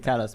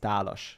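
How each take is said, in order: First: The name is pronounced the English way. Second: The name is pronounced the Hungarian way. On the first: This is how English speakers say it. "everybody in English they say Talas" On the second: This is the original pronunciation of the name. "the real way that uh, I pronounce it is Talos because it's Hungarian"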